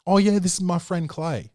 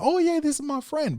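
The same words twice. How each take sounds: First: Said in the usual way. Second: Put-on much higher, sing-song voice for a kid; mock child-directed voice; talking to a child. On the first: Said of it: "they're like". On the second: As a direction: pitch way up like introducing a friend to a toddler. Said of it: "if you're speaking to a child".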